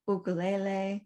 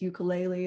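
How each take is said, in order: First: It uses the Hawaiian pronunciation. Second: It uses the usual English pronunciation. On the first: The speaker calls it right. "the proper pronunciation" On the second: The speaker calls it wrong. "what I said is"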